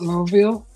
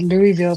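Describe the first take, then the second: First: The first part sounds like 'low'. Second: The first part sounds like 'Louie'. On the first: The speaker is from the area. "till I heard someone say it like that" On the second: The speaker is not from the area. "I've always said Louisville"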